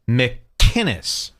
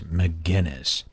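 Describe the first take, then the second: First: The name is said without a G sound. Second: The name is said with a hard G sound. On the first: The speaker calls it right. "pronounce it how it's written" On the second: The speaker calls it wrong. "all of these losers keep saying McGinnis"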